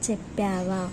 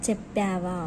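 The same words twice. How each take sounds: No difference in how they are said.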